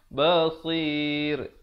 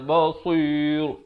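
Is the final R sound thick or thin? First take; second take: thin; thick. First: The final R is pronounced thin and light. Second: The final R is pronounced thick and heavy. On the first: The speaker calls it right. "rohnya diwakafkan dengan nipis" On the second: The speaker calls it wrong. "Jangan baca basir. Itu tak betul"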